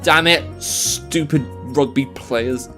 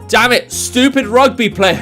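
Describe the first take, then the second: First: It is mumbled quietly under the breath. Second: It is yelled out loudly.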